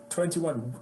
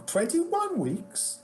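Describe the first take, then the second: First: Said in the usual way. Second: High, drawn-out incredulous echo; appalled disbelief. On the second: Retold or imitated. Agent repeats client's tour length, mock appalled. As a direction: mimic an agent outraged at the figure. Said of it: "she was not pleased with me".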